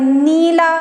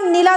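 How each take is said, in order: First: The first vowel is drawn out long. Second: The first vowel is short. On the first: The speaker calls it right. "थोड़ा सा स्वर अपना ऊंचा करना पड़ेगा" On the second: The speaker calls it wrong. "नीला को नीला तो बोल नहीं सकते हैं"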